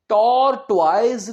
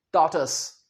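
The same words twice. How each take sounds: First: टॉर्टोइज slow as "tor-toiz"; wrong tortoise. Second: टॉर्टस as "tor-tus", short and low; right tortoise. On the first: Teacher showing the wrong tortoise. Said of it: "टॉर्टोइज नहीं होता". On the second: Teacher giving the correct tortoise. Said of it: "ये है". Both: Shown as a demonstration.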